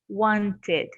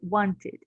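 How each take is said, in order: First: The ending has a full, clear vowel. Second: The ending has a neutral middle vowel. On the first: The speaker calls it wrong. "We don't say wanted" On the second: The speaker calls it right. "but we say wanted"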